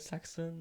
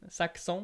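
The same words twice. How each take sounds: First: The name is said with an American accent. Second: The name is said with a French accent.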